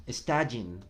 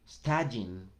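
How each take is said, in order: Both takes have the same delivery.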